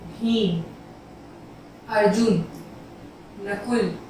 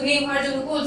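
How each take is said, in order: First: Short pauses separate each of the names. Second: The names run together without any pauses. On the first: Each name is heard as separate. The speaker calls it right. "तो मैं हल्का सा रुक गई" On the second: The names are hard to tell apart. The speaker calls it wrong. "अब मैं direct बोल दूं"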